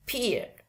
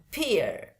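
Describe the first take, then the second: First: "peer" with silent final R; British demo of "peer", R dropped. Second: "peer" with sounded final R; American demo of "peer", R pronounced. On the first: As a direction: say "peer" ending on the vowel, no R. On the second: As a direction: say "peer" closing on an audible R. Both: Shown as a demonstration.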